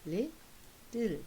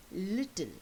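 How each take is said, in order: First: "little" pulled apart, LIT, long pause, TLE; split into syllables. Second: Said in the usual way. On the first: Shown as a demonstration. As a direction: break "little" into two slow beats. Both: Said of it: "take the two syllables apart".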